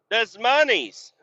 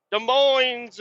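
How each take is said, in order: First: Des Moines said as "dez money's"; deliberate mispronunciation. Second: Des Moines said as "duh MOYNZ", high-pitched; mocking high call of Des Moines, "duh MOYNZ"; usual pronunciation. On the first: Pretend. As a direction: mockingly pronounce Des Moines "dez MUH-neez", high-pitched. Deliberate silly mispronunciation of city. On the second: Usual pronunciation after the silly one.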